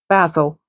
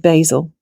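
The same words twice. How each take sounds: First: The word is said with a British pronunciation. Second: The word is said with an American pronunciation. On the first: This is how the speaker normally says it. "but I'll say um" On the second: The speaker avoids saying it this way. "I can't bring myself to say"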